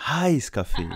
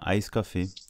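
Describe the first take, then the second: First: The first word starts with an audible H. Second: The first word starts with a vowel, no H. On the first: It asks for a hot coffee. The speaker calls it right. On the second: It was heard as an iced coffee. The speaker calls it wrong.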